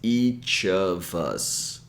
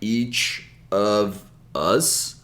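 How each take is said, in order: First: Each word's final sound links into the next. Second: Each word is said separately. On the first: The speaker calls it right. "we bring the last sound of each word to the next word" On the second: The speaker calls it wrong. "We don't say each word separately like"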